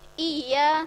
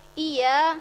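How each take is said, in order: First: The y sound is short and single. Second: The y sound is short and single.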